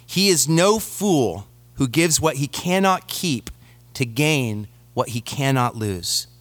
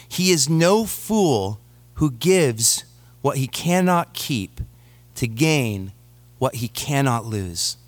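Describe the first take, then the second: First: Said in the usual way. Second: "no" and "keep" weighted, slow with pauses before "keep", "to gain" and "what he cannot lose"; slow emphatic repeat. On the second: Shown as a demonstration. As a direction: repeat it slowly and let "keep" drop low. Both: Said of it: "Jim Elliot once said".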